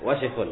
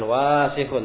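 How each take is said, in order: First: The first vowel is kept short. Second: The first vowel is drawn out long. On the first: The speaker calls it right. "wasikun tidak panjang dibaca, tapi wasikun" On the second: The speaker calls it wrong. "Bukan wasikun"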